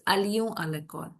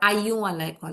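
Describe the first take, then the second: First: The L sound in the first word is pronounced. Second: The L sound in the first word is silent. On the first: The speaker calls it right. "यहाँ पे हम pronounce कर रहे हैं" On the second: The speaker calls it wrong. "It's not"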